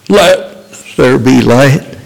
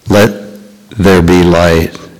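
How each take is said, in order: First: The phrase is shouted loudly. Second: The phrase is spoken calmly, without shouting.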